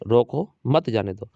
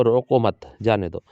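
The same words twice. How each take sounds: First: Slow reading with a clear break after "रो को", then "मत जाने दो" as one phrase; pause after को. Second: Slow reading with "रो को मत" together, a clear break, then "जाने दो"; pause after मत. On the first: Teacher answering how the comma reads, pausing between "रो को" and "मत जाने दो". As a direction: read "रो को", stop, then "मत जाने दो". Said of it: "यहाँ पर लगाता हूँ कॉमा तो क्या पढ़ोगे". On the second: Teacher showing the moved comma to students, pausing between "रो को मत" and "जाने दो". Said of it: "इसी को यहाँ लगा देता हूँ तो आप क्या पढ़ोगे".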